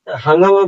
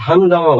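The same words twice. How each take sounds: First: হাঙ্গামা said without the g, as the wrong way; wrong form demo. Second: হাঙ্গামা said with a clear g after the ng; correct g demo. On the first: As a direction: say হাঙ্গামা as hang-ama, nasal only, no g. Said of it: "বলি না আমরা". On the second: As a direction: say হাঙ্গামা as hang-ga-ma with the g sounded. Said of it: "বলি". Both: Shown as a demonstration.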